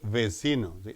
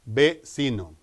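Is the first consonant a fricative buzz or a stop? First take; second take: fricative; stop. First: The first consonant is a buzzing lip-teeth fricative. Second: The first consonant is a stop made with both lips. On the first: The speaker calls it wrong. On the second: The speaker calls it right.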